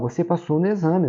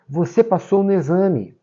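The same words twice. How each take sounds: First: It sounds like a calm, flat statement. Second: It sounds emotional and excited.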